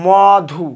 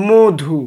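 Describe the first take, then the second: First: মধু split up, with open first vowel "maw-dhu"; as written. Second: মধু with closed, rounded "o", "mo-dhu"; as pronounced. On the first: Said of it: "তাহলে লিখছি". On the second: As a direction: say মধু as "modhu". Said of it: "তাহলে উচ্চারণ কি হবে?". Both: Shown as a demonstration.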